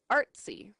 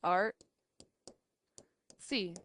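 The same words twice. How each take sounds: First: Said in the usual way. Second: "art, see" with a long pause between; separated syllables. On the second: Shown as a demonstration. Teacher going through two syllable words, "art, see" far apart. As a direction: break the word into "art", then "see". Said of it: "So we can separate it".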